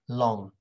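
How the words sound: It is said in a British accent. "In British, it's like"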